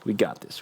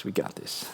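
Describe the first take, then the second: First: Said in the usual way. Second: Whisper. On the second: Real, not acted. Pep talk whispered to himself.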